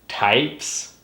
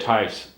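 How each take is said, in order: First: The word is clearly articulated with moving cheeks. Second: The word is mumbled with almost no mouth movement. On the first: The speaker calls it right. "If you feel it in your cheeks, like types, then you're doing it right" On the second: The speaker calls it wrong. "If you say it types, then nothing moves"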